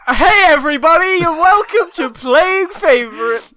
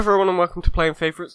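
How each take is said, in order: First: It sounds bright and overly cheerful. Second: It sounds flat and fed up.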